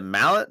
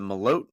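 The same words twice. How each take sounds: First: Malott said like "mallet", MAL-ut; first-syllable stress. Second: Malott said as muh-LOTE, long o; second-syllable stress. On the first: Co-host checking a fighter's surname, Malott said as MAL-ut. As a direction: stress the front of Malott, short second vowel. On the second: Co-host offering another surname reading, Malott said as muh-LOTE. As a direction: stress the end of Malott, rhyming with "note". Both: Shown as a demonstration. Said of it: "What is it?".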